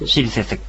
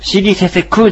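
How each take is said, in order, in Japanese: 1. 単語は母音のないkの音で終わります。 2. 単語は完全な「ku」の音節で終わります。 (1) "しりせせくという発音になります" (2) "しりせせくじゃないんですね"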